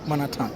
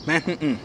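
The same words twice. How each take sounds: First: Manhattan said the French way, man-a-ta, no h, soft final; French pronunciation. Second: Manhattan said the American way, man-HAT-n, stress on the middle; American Manhattan with a stressed middle syllable; New York pronunciation. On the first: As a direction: say Manhattan as a French speaker would, flat even stress. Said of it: "on ne prononce pas Manhattan". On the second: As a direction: say Manhattan like a New Yorker, swallowed final n. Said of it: "on prononce Manhattan". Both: Shown as a demonstration.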